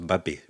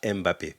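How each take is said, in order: First: The M is joined directly onto the word. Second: The M is said as a separate letter. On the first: The speaker calls it right. "ça se prononce Mbappé" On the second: The speaker calls it wrong. "pas Mbappé"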